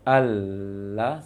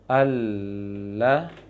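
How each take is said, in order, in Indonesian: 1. Huruf l dibuat di antara gigi. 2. Huruf l dibuat di belakang gigi atas. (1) "sampai keluar lisannya" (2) "ujung sisinya menempel ke gusi gigi seri atas. Maka dia di dalam"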